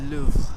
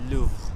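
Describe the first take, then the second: First: The R is said breathy, like an H. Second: The same.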